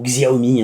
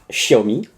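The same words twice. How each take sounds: First: The name is said with French-style sounds. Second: The name is said with Chinese-style sounds.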